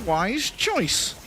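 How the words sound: It is said in a put-on character voice.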